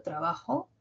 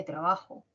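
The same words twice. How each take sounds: First: "trabajo" con la última o subiendo; o final aguda. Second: "trabajo" grave y suave, cayendo al final. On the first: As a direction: sube el final de "trabajo" como pregunta. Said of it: "mi o ha sido más aguda". ("trabajo" con final ascendente) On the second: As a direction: baja la última o de "trabajo". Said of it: "que es más grave". ("trabajo" con final descendente) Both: Shown as a demonstration.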